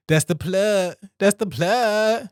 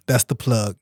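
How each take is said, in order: First: That's the plug stretched out slow and lilting; playful sing-song. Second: Said in the usual way. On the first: Real, not acted. Wrapping up his ad plug to listeners, slow and playful. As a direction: savour it, slow and teasing. Playful repeat after laughing.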